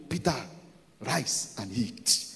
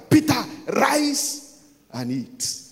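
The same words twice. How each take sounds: First: Low, soft, slow heavenly command. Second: Raised, drawn-out third command; voice from heaven insisting. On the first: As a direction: give the first command quietly and slowly. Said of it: "a voice accompanied it to". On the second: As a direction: call it out higher and slower, insisting. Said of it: "The third time". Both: Acted.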